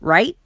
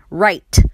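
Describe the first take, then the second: First: The final T is cut short and not released. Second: The final T is clearly released and audible. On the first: "你可以念成一个促音 ... 就是变成你T不会发音" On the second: "或者是你想要把T念出来 ... 也可以"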